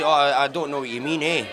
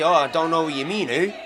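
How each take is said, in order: First: It is said in an Edinburgh Scottish accent. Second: It is said in a Canadian accent.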